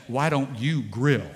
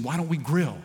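First: Slowed, with weight on "you"; stress on you. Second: Said in the usual way. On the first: Retold or imitated. Wife hinting he should cook, "you" stressed. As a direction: lean on "you" in "Why don't you grill?". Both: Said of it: "In other words, she's saying".

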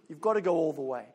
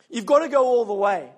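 First: Softly, almost to himself, stress on got; said low and hushed, leaning on got; quiet. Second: Firmer and fuller, punching got; emphatic repeat. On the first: Preacher quietly tells the church to go all the way, hushed. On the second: Preacher repeats the charge to the whole church, emphatic. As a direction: declare it to the room, hitting got. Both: Real, not acted.

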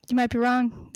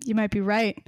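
First: "might" stressed. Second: "right" lower and weighed; stress on right. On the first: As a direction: lean on "might" in wrong. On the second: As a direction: lean on "might" in right. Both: Shown as a demonstration.

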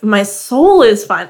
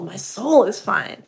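First: "soul" drawn long and hit hard; slow line leaning heavily on "soul"; stress on soul. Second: Softer repeat, "soul" stretched out; slow and quieter, dwelling on "soul"; stress on soul. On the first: Retold or imitated. Host quoting Ryan's retort to Seth, emphatic stress on "soul". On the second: Shown as a demonstration. Host repeating Ryan's quote to show it, soft drawn-out stress on "soul". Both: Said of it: "Emphasis on soul".

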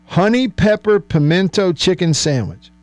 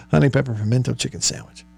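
First: "Honey pepper pimento chicken sandwich" announced higher and deliberately; savoured sandwich name. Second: "Honey pepper pimento chicken sandwich" rattled off quickly, softer; fast tongue twister. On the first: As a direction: relish each word, pitched up. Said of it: "just listen to the sound of it". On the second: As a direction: race through it like a tongue twister. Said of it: "Say that five times fast". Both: Shown as a demonstration.

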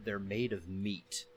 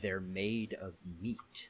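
First: Low, slow deadpan line; deadpan film quote. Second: Soft, low, drawn-out MEAT; slow deadpan repetition. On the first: Reciting short film dialogue. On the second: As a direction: repeat it very slowly, stressing each word in deadpan. Repeats film line after "What?. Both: Retold or imitated.

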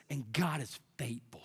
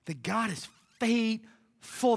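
First: Low, soft scripture reading; hushed reverence. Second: "faithful" stretched slowly in a fuller voice; emphatic repeat. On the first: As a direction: read it softly, as quiet assurance. Hushed first reading of verse. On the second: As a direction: draw out "faithful" with weight. Verse repeated with more emphasis. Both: Real, not acted.

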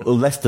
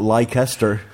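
First: Said in the usual way. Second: Leicester said in full as "Lie-kester"; mispronounced place name. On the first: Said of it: "not Leicester". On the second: Shown as a demonstration. Showing how visitors misread it, Leicester as "Lie-kester". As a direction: sound out every syllable of Leicester, "Lie-kes-ter". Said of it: "or Leicester, not".

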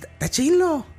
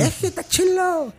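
First: Much higher, sing-song Sinaloa narco drawl on "Está chilo"; mock Sinaloa accent, high and stretched. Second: Put-on much higher and slow, "Es que está chilo" in a Sinaloa accent; slow, high narco-series Sinaloa accent. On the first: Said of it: "En Sinaloa hablan como". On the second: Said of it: "ahí son como los narquillos".

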